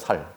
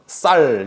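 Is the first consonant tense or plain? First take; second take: plain; tense. First: It begins with a plain, soft s sound. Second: It begins with a tense, hard s sound. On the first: This is how Gyeongsang speakers say it. "살 그러면 살" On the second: This is the standard way of saying it. "쌀 이거 못하고"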